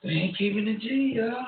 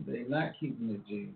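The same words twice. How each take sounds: First: High exclaim. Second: Said in the usual way. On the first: Real, not acted. Exclaims about rappers' feud.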